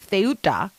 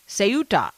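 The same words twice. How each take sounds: First: It begins with a TH sound. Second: It begins with an S sound.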